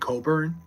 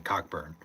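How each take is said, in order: First: The name is said without a k sound. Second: The name is said with a k sound. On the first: The speaker calls it right. "you don't say the C and K in his name though" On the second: The speaker calls it wrong. "he didn't want to say Cockburn"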